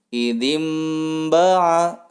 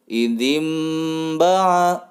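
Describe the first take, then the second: Both takes have the same delivery.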